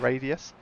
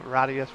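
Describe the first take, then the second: First: The name is pronounced the English way. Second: The name is pronounced the Italian way. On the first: "more than" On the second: "going for Italian pronunciation"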